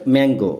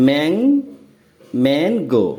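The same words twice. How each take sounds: First: Said in the usual way. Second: "Mang-" alone, then mango in two parts; first syllable "mang" held up alone, then "mang-go"; broken into syllables. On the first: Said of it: "তারপর দেখো আরেকটি word". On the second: Shown as a demonstration. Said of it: "বন্ধনীতে দেখো".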